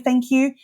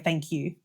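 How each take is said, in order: First: It is said loudly, in a projected front voice. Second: It is said quietly, in a soft private voice. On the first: "using your front voice" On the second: "You could use your private voice"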